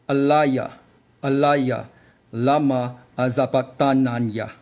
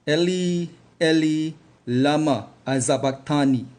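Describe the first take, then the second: First: The opening word is said as 'Alaya'. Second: The opening word is said as 'Eli'. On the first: "Let's repeat the same phrase in the ancient Paleo dialect of Hebrew" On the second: "I will now use the modern dialect of uh, the Yiddish version of Hebrew"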